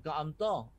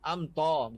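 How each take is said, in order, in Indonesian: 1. Bunyi t itu berat dan tebal. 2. Bunyi t itu ringan dan tipis. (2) "Ta nipis"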